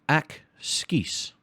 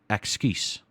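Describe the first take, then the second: First: It is said at a normal pace. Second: It is said quickly.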